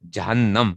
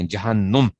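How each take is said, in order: First: جہنم said with a clear a in the last syllable, "jahannam"; correct pronunciation. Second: جہنم said the wrong way, ending in -num like "jahannum"; wrong pronunciation. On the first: Teacher giving students the correct pronunciation. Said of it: "جہنم نہیں ہوتا". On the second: Teacher showing students the wrong way to say the word. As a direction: say جہنم with u in the last syllable, the common mistake. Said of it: "لوگ اس کو غلط پڑھتے ہیں". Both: Shown as a demonstration.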